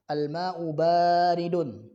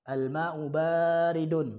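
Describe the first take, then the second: No difference in how they are said.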